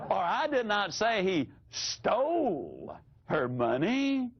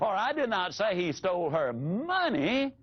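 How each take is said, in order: First: The stress is on the word stole. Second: The stress is on the word money.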